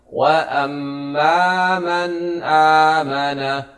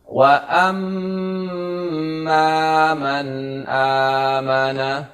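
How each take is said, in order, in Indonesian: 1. Mim yang bertasydid dipotong pendek dan tidak stabil. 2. Mim yang bertasydid ditahan selama dua ketukan. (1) "Jangan kita membaca" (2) "mim yang bertasydid dibaca dengan gunnah"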